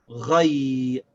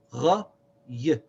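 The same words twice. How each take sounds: First: Ghay as one drawn-out glide; blended sounds. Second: Gha, pause, short y; separate sounds. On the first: Teacher puts the sounds together, ghay blended and held. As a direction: run gha into y for a long ghay. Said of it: "So we say". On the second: Teacher takes ghay apart, gha and y said separately. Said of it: "it's gha plus the sound of y". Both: Shown as a demonstration.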